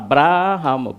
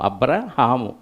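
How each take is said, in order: First: The vowel in 'bra' is long. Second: The vowel in 'bra' is short. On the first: This is the form written in the Bible. The speaker calls it right. "అబ్రాహాము బాకు దీర్ఘం ఉంది" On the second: This is the form people usually say from hearing it. The speaker calls it wrong. "అబ్రహాము అంటాం. బ్రాకి దీర్ఘం పెట్టం"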